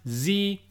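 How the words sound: The letter is said the American way.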